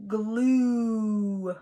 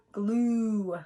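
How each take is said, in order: First: "glue" with the long U held; drawn-out glue. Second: Said in the usual way. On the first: Shown as a demonstration. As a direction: stretch the oo in glue. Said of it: "What long vowel do you hear in". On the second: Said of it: "I hear the long U sound".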